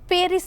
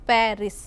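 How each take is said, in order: First: The first vowel is a closed e. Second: The first vowel is an open e. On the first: The speaker calls it wrong. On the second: The speaker calls it right.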